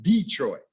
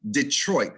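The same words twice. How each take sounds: First: DETROIT as DEE-TROIT, slow; both syllables hit. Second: DETROIT as di-TROIT, weak first syllable; second-syllable stress. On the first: Diction teacher showing the error to avoid, both syllables hit. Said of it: "you're hitting both syllables". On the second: Diction teacher modelling Detroit, second syllable stressed. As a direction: land only on the TROIT of Detroit. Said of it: "not Detroit". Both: Shown as a demonstration.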